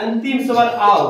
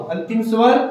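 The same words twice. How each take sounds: First: Said in the usual way. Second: "अंतिम स्वर" called out loud, rising at the end for the class to finish; teacher calling out "अंतिम स्वर" so students complete it; loud prompt. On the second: Shown as a demonstration.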